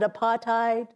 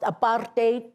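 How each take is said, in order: First: The last part does not sound like 'hate'. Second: The last part sounds like the word 'hate'. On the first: The speaker calls it wrong. "people here pronounce it apartheid, and it sounds nice" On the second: The speaker calls it right. "it's actually pronounced apartheid, and it describes itself: apart, hate"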